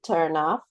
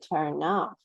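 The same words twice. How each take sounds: First: The stress falls on the verb. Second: The stress falls on the particle. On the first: The speaker calls it wrong. "We don't say turn off" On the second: The speaker calls it right. "we say turn off"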